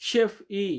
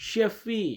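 The two takes are said the same way.

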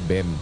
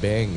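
First: The word ends in a closed m sound. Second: The word ends in a nasal ng sound. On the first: The speaker calls it wrong. "hindi bem" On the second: The speaker calls it right. "Beng, eh, hindi bem"

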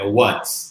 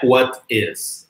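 First: The words merge into one contracted syllable. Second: Two full separate words are said. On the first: The speaker calls it right. "é what" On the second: The speaker calls it wrong. "Não é what is"

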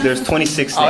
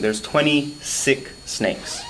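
First: It is said fast, words running together. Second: It is said slowly and clearly.

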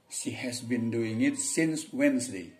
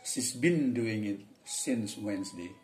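First: She has is said as two full words. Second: She has is contracted into one syllable. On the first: "bisa dibaca" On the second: "Bisa juga"

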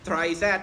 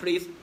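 First: The name is said as two separate parts. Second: The name is said as one syllable.

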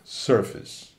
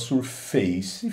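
First: The second syllable is reduced, not like face. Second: The second syllable sounds like the word face. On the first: The speaker calls it right. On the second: The speaker calls it wrong.

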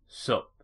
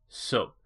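No difference in how they are said.

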